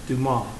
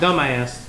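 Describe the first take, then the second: First: The final s is silent. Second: The final s is sounded. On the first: The speaker calls it right. "but Dumas" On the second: The speaker calls it wrong. "like not dumbass"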